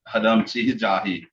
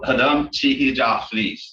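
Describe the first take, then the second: First: A plain h sound is used and the final s is dropped. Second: A thl sound is used and the final s is said. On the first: "more with just an H ... wouldn't even pronounce this S" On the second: "the R sound up here is like a T H L"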